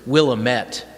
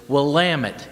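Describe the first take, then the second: First: The ending does not rhyme with 'damn it'. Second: The ending rhymes with 'damn it'. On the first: The speaker calls it wrong. "you heard it referred to as Willamette" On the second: The speaker calls it right. "the way you pronounce it is Willamette, damn it"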